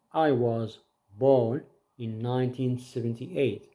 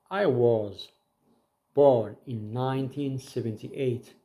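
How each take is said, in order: Both takes have the same delivery.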